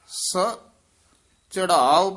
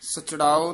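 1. ਇਹ ਦੋ ਹਿੱਸਿਆਂ ਵਿੱਚ ਵੰਡ ਕੇ ਪੜ੍ਹਿਆ ਜਾਂਦਾ ਹੈ। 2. ਇਹ ਇੱਕ ਜੁੜੇ ਹੋਏ ਸ਼ਬਦ ਵਾਂਗ ਪੜ੍ਹਿਆ ਜਾਂਦਾ ਹੈ। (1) "ਵੱਖਰਾ ਪਾਠ ਕਰਨਾ ਹੈ" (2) "ਸਚੜਾਓ ਨਹੀਂ ਕਹਿਣਾ"

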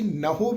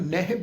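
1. ਸ਼ਬਦ ਦਾ ਅੰਤ 'ho' ਧੁਨੀ ਨਾਲ ਹੁੰਦਾ ਹੈ। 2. ਸ਼ਬਦ ਦਾ ਅੰਤ 'hi' ਧੁਨੀ ਨਾਲ ਹੁੰਦਾ ਹੈ। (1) "ਉਹਨੂੰ ਅਸੀਂ ਨਹੋ ਵੀ ਨਹੀਂ ਪੜ੍ਹਨਾ" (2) "ਕਈ ਸੱਜਣੇ ਦਾ ਉਚਾਰਨ ਨਹਿ ਵੀ ਕਰਦੇ ਆ"

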